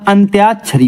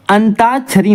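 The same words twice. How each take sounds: First: Said in the usual way. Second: अंताक्षरी with no y, "antaakshari"; wrong form अंताक्षरी, plain t without y-glide; mispronunciation. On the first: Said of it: "अंत्याक्षरी होता है". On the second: Shown as a demonstration. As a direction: say अंताक्षरी as an-taa-chhari, pitched up. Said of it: "अंताक्षरी नहीं होता".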